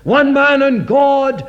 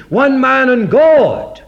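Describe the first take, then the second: First: One man and God, slow, with the weight on One; stress on One. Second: One man and God, slow, with the weight on God; stress on God. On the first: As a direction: hit the word One first, higher than the rest. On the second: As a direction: land hard on the word God, higher and louder. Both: Shown as a demonstration. Preacher contrasts stressed words.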